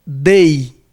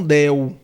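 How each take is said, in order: First: Dei said slowly, ending in an ei glide. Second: Del ending with a clear L sound; del, wrong reading with a final L. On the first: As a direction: stretch out dei slowly, no L sound. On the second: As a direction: contrast it: del with an L at the end. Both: Shown as a demonstration. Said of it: "e não del".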